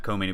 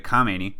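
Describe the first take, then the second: First: Khomeini with an "oh" in the first syllable; contrasted name pronunciation. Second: Khamenei with an open "ah" in the first syllable; contrasted name pronunciation. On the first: Naming the other ayatollah to rule him out, KOH sound in Khomeini. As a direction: say "Khomeini" as koh-MAY-nee. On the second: Clarifying which ayatollah leads now, KAH sound in Khamenei. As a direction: say "Khamenei" as kah-MAY-nee, the first vowel clear. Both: Shown as a demonstration. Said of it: "not Khomeini, but Khamenei".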